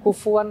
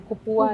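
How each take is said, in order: First: The middle consonant is an f sound. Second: The middle consonant is a p sound. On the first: The speaker calls it right. "Mengucapkan F juga susah" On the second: The speaker calls it wrong. "jadi kupuan"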